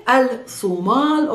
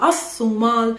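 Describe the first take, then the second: First: Al-Sumal slowly with the l sounded; article pronounced al. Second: As-Sumal slowly, l replaced by a long s; assimilated article. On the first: Teacher adding the article for learners, sounded l in Al-Sumal. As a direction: say Al-Sumal with a clear "al" before "Sumal". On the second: Teacher giving the alternative, doubled s in As-Sumal. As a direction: say As-Sumal as "as-soo-MAAL", doubled s. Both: Shown as a demonstration. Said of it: "add the al at the beginning".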